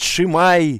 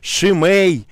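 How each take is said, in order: First: The name ends in an 'ai' sound. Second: The name ends in an 'ei' sound. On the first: "кто-то его называет Шимай"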